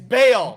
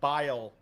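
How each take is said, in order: First: The name rhymes with mail. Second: The name rhymes with mile. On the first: The speaker calls it right. "It's Bale" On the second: The speaker calls it wrong. "this gentleman's name is not Bile"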